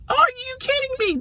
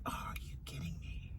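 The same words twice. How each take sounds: First: High, incredulous are-you-kidding-me; exasperated disbelief. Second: Breathy whisper, voice dropped out; whispered disbelief. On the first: Pet mom outraged at her picky dog, high incredulous. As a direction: pitch way up in mock outrage. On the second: Pet mom whispering at the side-eyeing dog, hushed disbelief. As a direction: hiss it under your breath in disbelief. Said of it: "I'm like". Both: Retold or imitated.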